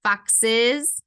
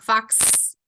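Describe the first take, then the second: First: Foxes with a clear second syllable, es; plural ending. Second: Fox cut off after the ks sound; singular ending. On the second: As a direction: say fox as one syllable, no es ending. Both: Shown as a demonstration. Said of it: "not fox".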